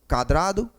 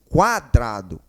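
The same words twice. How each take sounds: First: The U sound after the first consonant is silent. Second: The U sound after the first consonant is heard. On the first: The speaker calls it wrong. "ninguém fala quadrado" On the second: The speaker calls it right. "o U é sonoro"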